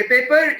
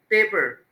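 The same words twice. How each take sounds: First: paper with the second half given full weight; unstressed first syllable. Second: paper with "पे" drawn out, "पर" short; stress on PA. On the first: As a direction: say paper without stretching "पे". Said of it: "इसमें क्या बोलेंगे". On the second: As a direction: stretch the first syllable of paper and drop the end. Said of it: "stress का मतलब है उसको लंबा खींच के". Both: Shown as a demonstration.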